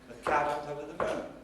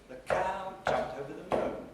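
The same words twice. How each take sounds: First: Beats fall on cow and moon only. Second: Beats fall on cow, jumped, and moon only. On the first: "just stresses on cow and moon, and not on jumped and not on over" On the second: "rhythmic stresses on cow, jump, and moon, but not on the first syllable of over"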